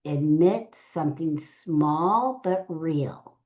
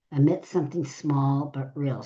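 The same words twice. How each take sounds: First: Slow, weighted. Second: Said in the usual way. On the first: Shown as a demonstration. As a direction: stretch out small but real.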